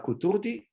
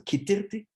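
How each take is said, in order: First: The first two vowels are oo sounds. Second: The first two vowels are ee sounds. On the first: This is the Egyptian Judeo-Arabic form. "uu in uh, in Egyptian Judeo-Arabic" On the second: This is the standard Egyptian Arabic form. "ee in standard Egyptian Arabic"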